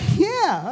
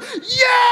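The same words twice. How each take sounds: First: It is said calmly and casually. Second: It is shouted with full energy.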